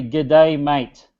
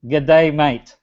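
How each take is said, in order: First: A light Australian accent on the greeting; casual Australian accent, lightly done; Aussie greeting. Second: Mild Australian accent, a touch slower; light Australian accent; Aussie greeting. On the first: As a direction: say it like a friendly Aussie mate. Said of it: "in Aussie accent". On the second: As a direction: repeat it the Aussie way for the audience. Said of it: "If you can spell that in Aussie accent". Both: Shown as a demonstration.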